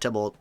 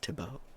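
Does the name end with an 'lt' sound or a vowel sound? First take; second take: 'lt' sound; vowel sound. First: The name ends with an 'lt' sound. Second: The name ends with a vowel sound. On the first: This is the speaker's own habitual pronunciation. "I pronounce it Tybalt" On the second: This is the pronunciation the teacher prefers. "It's Thibaut"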